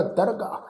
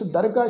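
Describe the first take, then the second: First: ਦਰਗਾਹ said "dargaah", with a long aa ending; correct pronunciation. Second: ਦਰਗਾਹ wrongly said "dargai", with an ai ending; mispronounced ending. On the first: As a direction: end ਦਰਗਾਹ on an open "aa", as "dar-gaa". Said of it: "ਇਹ ਸ਼ਬਦ ਦਾ ਉਚਾਰਨ ਹੋਏਗਾ". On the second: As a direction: end ਦਰਗਾਹ on an "ai" vowel, as "dar-gai". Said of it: "ਉਚਾਰਨ ਨਹੀਂ ਕਰਨਾ". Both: Shown as a demonstration.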